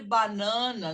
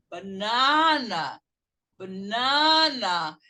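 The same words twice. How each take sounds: First: "banana" with every A fully sounded, Brazilian style; syllable-by-syllable banana. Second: "banana" with reduced first syllable and long, loud NA; English banana. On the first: Teacher shows students the mistake, "banana" with full syllables. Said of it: "não fale banana". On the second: Teacher models it for the class, "banana" slow with stressed middle. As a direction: stretch the middle of "banana" loudly, b'NAA-na. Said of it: "não é banana". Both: Shown as a demonstration.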